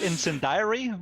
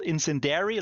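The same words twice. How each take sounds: First: It has a j sound as in journal. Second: Its ending sounds like the word dairy. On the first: "I don't think it's called incendiary with a journal" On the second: "It's also not called incendiary like the milk"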